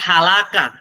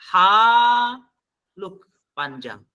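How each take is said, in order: First: The first vowel is cut short. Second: The first vowel is drawn out long. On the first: It means perished. The speaker calls it wrong. "Tapi kalau langsung pendek, artinya sudah beda" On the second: It means your condition. The speaker calls it right. "Haluk di sini adalah haluk panjang"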